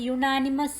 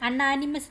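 First: The word begins with a 'yoo' sound. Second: The word begins with an 'ah' vowel sound. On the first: The speaker calls it right. "യുണാനിമസ് എന്നാണ് നമ്മൾ വായിക്കുന്നത്" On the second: The speaker calls it wrong. "അണ്ണാനിമസ് എന്നല്ല വായിക്കുന്നത്"

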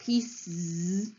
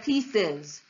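First: The word ends in a bare z sound. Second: The word ends in a vowel plus z. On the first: The speaker calls it wrong. "You can either say z, which would sound like pieces" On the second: The speaker calls it right. "which is how we actually say the plural of pieces"

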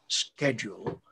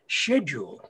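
First: The word is given its American pronunciation. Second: The word is given its British pronunciation. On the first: The speaker calls it wrong. "over here in Britain, we don't say schedule" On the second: The speaker calls it right. "the word is schedule"

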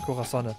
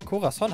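First: The name ends with an extra syllable. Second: The name ends on a plain n. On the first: The speaker calls it wrong. "Nicht Corazonne" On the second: The speaker calls it right. "Corazon heißt das, ne?"

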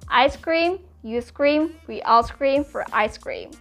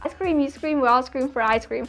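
First: It is said slowly. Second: It is said very fast.

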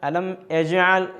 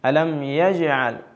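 First: The second word starts with a glottal 'e' sound. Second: The second word starts with a clear 'y' sound. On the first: The speaker calls it wrong. "യാ ഇന് പകരം ഒരു എ എന്ന ശബ്ദം കേൾക്കുക, ഒരു ഹംസയോട് കൂടിയ ശബ്ദം, അത് ഒഴിവാക്കേണ്ടതുണ്ട്" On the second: The speaker calls it right. "അലം എന്നത് കഴിഞ്ഞാൽ പിന്നെ യാ ആണുള്ളത്"

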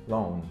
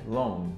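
No difference in how they are said.

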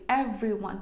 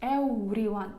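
First: The v sound is made with teeth on the lower lip. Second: The v sound is made with rounded lips, like w. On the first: The speaker calls it right. "в нас зуби мають торкатися нижньої губи" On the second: The speaker calls it wrong. "тому не якось everyone"

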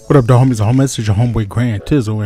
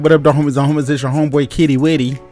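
First: It is said in a deeper DJ-like voice. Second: It is said in a high squeaky voice.

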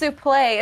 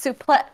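First: The word ends without a glottal stop. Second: The word ends with a glottal stop. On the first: The speaker calls it wrong. "it's not pronounced suplex" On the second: The speaker calls it right. "It's pronounced suplex with a glottal stop at the end"

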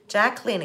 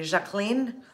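First: The name is said with an English accent. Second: The name is said with a French accent.

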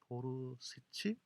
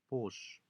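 First: The word is said in three syllables. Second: The word is said in two syllables. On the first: This is the usual Korean way of saying it. "우리말로는 그냥 막 보르시치 이런 막 얘기하는데" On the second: This is the English way of saying it. "영어 발음은 보쉬"

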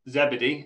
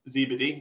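First: The name is said the British way. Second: The name is said the American way. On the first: "in British English, it's pronounced ZeeBeeDee" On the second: "in America, people like to call it ZeeBeeDee"

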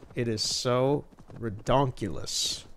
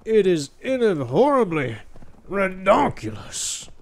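First: It is said plainly, without extra flair. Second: It is said with dramatic, exaggerated flair.

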